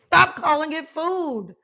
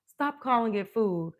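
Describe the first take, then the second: First: Emphatic command. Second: Said in the usual way. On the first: Shown as a demonstration. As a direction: stop calling it food, loud, slow and high. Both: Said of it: "I teach people".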